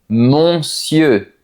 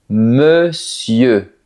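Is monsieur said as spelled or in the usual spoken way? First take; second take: as spelled; usual way. First: It is said following every written letter. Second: It is said in the usual spoken form. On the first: The speaker calls it wrong. "si tu regardes l'écriture, tu peux avoir envie de dire quelque chose comme monsieur" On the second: The speaker calls it right. "Mais non, on dit plutôt monsieur"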